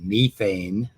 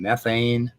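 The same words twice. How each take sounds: First: It is said with a British pronunciation. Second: It is said with an American pronunciation.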